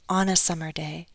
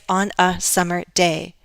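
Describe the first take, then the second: First: The words are linked smoothly into one group. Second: The words are said separately, not connected. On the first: The speaker calls it right. "Sounds are connected. I say on a summer day" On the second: The speaker calls it wrong. "I don't say on a summer day"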